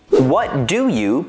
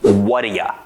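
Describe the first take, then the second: First: Each word of 'what do you' is said separately. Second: 'You' is reduced to 'ya' and linked. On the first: "What do you becomes" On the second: "becomes what do ya"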